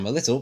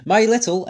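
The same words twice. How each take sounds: First: Said in the usual way. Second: "My little" pitched high and loud; stress on MY LITTLE. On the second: Real, not acted. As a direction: punch "My little" up front. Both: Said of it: "emphasis on my little".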